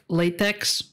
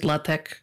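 First: It sounds like the rubber material latex. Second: It sounds different from the rubber material. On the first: This is how the name is spelled. "you write it like latex" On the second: This is how the name is pronounced. "you pronounce it LaTeX"

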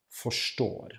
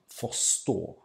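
First: The r and s merge into one sh sound. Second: A throaty r is followed by a separate s. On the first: "the combination of an R and an S becomes a sh then" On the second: "we would separate the R and the S sound"

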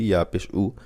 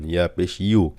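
First: The final syllable is a bare 'u' sound. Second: The final syllable starts with a 'y' sound. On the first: The speaker calls it wrong. "ইয়া আমরা অনেক সময় উ বলি" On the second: The speaker calls it right. "আসলে ইয়া পেশ হবে ইউ"

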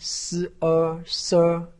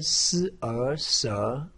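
First: The pitch stays high and level. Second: The pitch rises from middle to high. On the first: "一声" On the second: "二声"

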